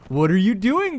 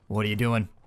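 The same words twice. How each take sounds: First: It is said in a soft, friendly tone. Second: It is said in a firm, stern tone. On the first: The pet hears it as praise. The speaker calls it wrong. "setting that vocal tone is probably a bad thing" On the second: The pet is being told off. The speaker calls it right. "you gotta be firm"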